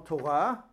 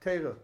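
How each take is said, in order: First: It is said with everyday Israeli Hebrew vowels. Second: It is said with Yiddish-style Ashkenazi vowels. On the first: The word is said as in everyday speech. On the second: The word is set apart from everyday speech.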